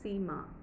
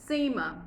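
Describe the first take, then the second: First: The stress is on the second syllable. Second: The stress is on the first syllable. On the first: This is how the name sounds in Hindi. "Ma is the focus" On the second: This is how English speakers say the name. "First syllable stress"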